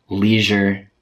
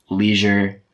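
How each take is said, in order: The two takes are said the same way.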